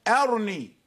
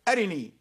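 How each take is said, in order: First: There is no vowel after the r. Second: The vowel after the r is briefly snatched. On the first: "والوجه وجه السكون موجود أيضا" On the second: "هو يقول أرني"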